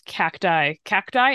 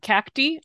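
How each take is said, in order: First: Cacti said as CACK-tie; preferred pronunciation. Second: Cacti said as CACK-tee; rejected pronunciation. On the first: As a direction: say cacti with an "eye" ending. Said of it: "seeing as I pronounce". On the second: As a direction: say cacti with an ee ending. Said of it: "and not cacti". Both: Shown as a demonstration.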